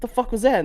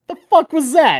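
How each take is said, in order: First: Baffled disbelief. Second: Much higher, baffled "The fuck was that?"; stunned disbelief. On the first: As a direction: ask her, still confused. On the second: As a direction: react as if you can't believe what just happened. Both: Retold or imitated. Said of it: "I'm like".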